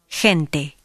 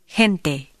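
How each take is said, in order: First: The first sound is a softer h. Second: The first sound is a very soft h. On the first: This is how it sounds in most of Latin America. "In most of Latin America, it is a softer sound" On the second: This is how it sounds in Central America and the Caribbean. "In Central America and the Caribbean, it is even softer"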